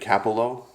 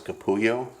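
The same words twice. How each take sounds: First: The double L sounds like an L. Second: The double L sounds like a Y. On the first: The speaker calls it right. "I believe it's Greg Capullo" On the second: The speaker calls it wrong. "which is how you pronounce double L's"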